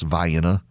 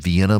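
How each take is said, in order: First: It is said the local Georgia way. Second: It is said the usual, familiar way. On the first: "but it's pronounced Vienna" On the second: "They have Vienna"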